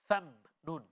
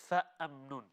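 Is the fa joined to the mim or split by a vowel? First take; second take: joined; split. First: The fa runs straight into the mim. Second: An extra vowel separates the fa from mim. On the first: The speaker calls it right. "we connect the fa to the letter mim" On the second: The speaker calls it wrong. "not fa am nun"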